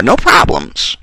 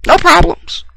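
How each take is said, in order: First: Said in the usual way. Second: 'No problems' jumped up much higher in a mocking squeak. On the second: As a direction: toss off 'No problems' in a sudden high falsetto mock. Repeats phrase, then mock version.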